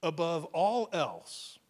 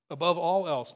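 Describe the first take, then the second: First: Slow, weighty "Above all else" with stress on "all"; emphasized slowly. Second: Louder "Above all else" with "all" punched; emphasized loudly. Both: Shown as a demonstration. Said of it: "I wanna emphasize the first three words".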